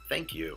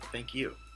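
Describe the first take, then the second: First: It sounds sarcastic and dismissive. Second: It sounds warm and sincere.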